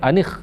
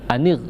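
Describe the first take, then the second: First: The consonant is a raspy throat sound, kh. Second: The consonant is a clear tongue-tip r. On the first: The speaker calls it wrong. "jangan sampai anikh ya" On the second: The speaker calls it right.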